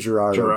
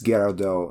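First: The name is pronounced the American way. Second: The name is pronounced the French way. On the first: "In America, you say Girardo" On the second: "I bet it's Girardot in France"

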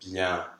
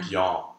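First: The nasal vowel sounds like an open E. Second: The nasal vowel sounds like a dark ah. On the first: The speaker calls it right. "instead of bien with an open E" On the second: The speaker calls it wrong. "where it sounds more like an en, almost like a dark ah nasal"

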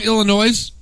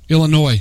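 First: The final s is pronounced. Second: The final s is silent. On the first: The speaker calls it wrong. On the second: The speaker calls it right.

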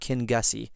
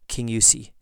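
First: The name is said with a hard g sound. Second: The name is said without a hard g sound. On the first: The speaker calls it wrong. "It's not King Gussie" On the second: The speaker calls it right.

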